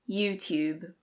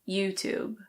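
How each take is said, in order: First: A British accent with a clear T sound. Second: It is said in an American accent. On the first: "In British English, this is pronounced YouTube" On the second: "In American English, it's usually YouTube"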